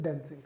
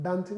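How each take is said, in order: First: Dancing with a short flat a, as in cat; dancing, the first vowel short like dæ; right pronunciation. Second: Dancing said as daansing, with a broad long aa; dancing with the Hindi-style long aa vowel; wrong pronunciation. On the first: Teacher models the correct dancing for students, short flat a. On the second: Teacher shows students the wrong way, dancing with a long aa. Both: Shown as a demonstration. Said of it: "Right pronunciation is dancing".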